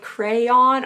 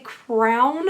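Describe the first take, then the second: First: The word sounds like 'crayon'. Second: The word sounds like 'crown'. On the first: This is how others may say it. "instead of like crayon or however else it's said" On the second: This is the speaker's own habitual, possibly regional, pronunciation. "I know I say crown"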